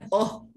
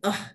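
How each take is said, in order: First: The vowel is heavy and thick. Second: The vowel is light and thin. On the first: The speaker calls it wrong. "jangan oh gitu, jadi tebal" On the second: The speaker calls it right. "Jadi ah"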